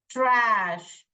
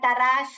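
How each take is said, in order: First: The t and r form one cluster. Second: An extra vowel separates the t and r. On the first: The speaker calls it right. "ट्र, ash, trash" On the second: The speaker calls it wrong. "ऐसे नहीं पढ़ने का"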